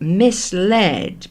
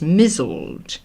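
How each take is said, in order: First: The word is said as mis-LED. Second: The word is said as MIZ-zled. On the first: "It derives from misled" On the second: "being pronounced as mizzled"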